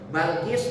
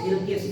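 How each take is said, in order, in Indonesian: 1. Vokal pertama adalah bunyi a terbuka. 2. Vokal pertama adalah bunyi i depan. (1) "Bisa disebut Balkis" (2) "dikasar semuanya"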